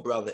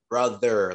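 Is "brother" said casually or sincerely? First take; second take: casually; sincerely. First: It is said as casual, offhand slang. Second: It is said earnestly and sincerely.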